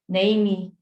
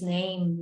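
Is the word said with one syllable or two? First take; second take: two; one. First: The word ends with an extra vowel syllable. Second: The word is a single syllable, no final vowel. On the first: The speaker calls it wrong. "instead of saying namey" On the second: The speaker calls it right. "it's name, name, so it's not that extra syllable"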